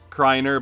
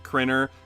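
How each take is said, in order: First: The first vowel of the name is long. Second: The first vowel of the name is short. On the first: The speaker calls it right. "My last name is pronounced Kreiner" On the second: The speaker calls it wrong. "some pronounce it Krinner, and it drives me insane"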